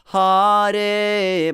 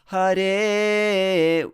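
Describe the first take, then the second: First: The first syllable, Ha, is stressed. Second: The first syllable, Ha, is left unstressed. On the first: The speaker calls it wrong. "here often I hear that Hare, but it's not Hare" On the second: The speaker calls it right. "So Hare will be more correct. So don't stress Ha in there"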